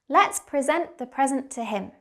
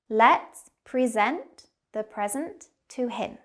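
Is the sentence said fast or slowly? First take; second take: fast; slowly. First: The sentence is said quickly, like natural speech. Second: The sentence is said slowly and carefully. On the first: "And faster now" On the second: "We'll go slowly first"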